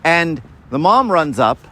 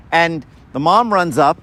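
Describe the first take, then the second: No difference in how they are said.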